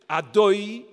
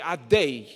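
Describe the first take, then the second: First: The vowel after the d sounds like oy. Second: The vowel after the d sounds like ay. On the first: "There's two ways of saying cholam. You can say cholam" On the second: "or chelam"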